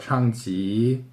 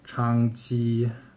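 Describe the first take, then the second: First: A rising tone, then another rising tone. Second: A rising tone, then a high level tone. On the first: This is how it is said in Taiwan. "那个国语就是两个第二声" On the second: This is how it is said in mainland China. "先第二声，然后第一声就是普通话"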